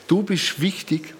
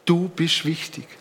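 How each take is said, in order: Both takes have the same delivery.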